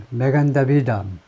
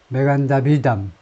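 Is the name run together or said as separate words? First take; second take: run together; run together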